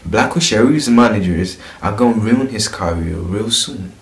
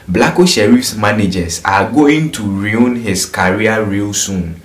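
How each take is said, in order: First: It is read in a London accent. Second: It is read in a Ghanaian English accent. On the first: "But when you go to London, we read it like this" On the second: "I'm gonna read it in Ghanaian language. I mean Ghanaian English for you"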